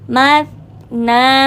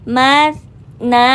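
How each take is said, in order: No difference in how they are said.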